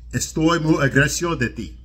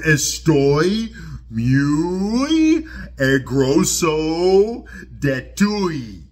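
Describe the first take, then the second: First: Spanish spoken with a fluent native Spanish accent. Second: Spanish spoken with a clumsy American English accent. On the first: A native speaker says it properly. The speaker calls it right. "which is how you say it" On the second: A non-native speaker is struggling with the language. The speaker calls it wrong. "he says it like that"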